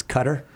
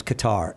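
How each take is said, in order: First: "Qatar" said like "cutter"; "Qatar" with a short, stressed first syllable; corrected pronunciation of Qatar. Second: "Qatar" said kuh-TAR, stress on the end; "Qatar" with a long, stressed second syllable; assumed pronunciation of Qatar. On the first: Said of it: "I'm sorry, I thought it was Qatar". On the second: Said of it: "I thought it was Qatar. It's Qatar". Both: Shown as a demonstration.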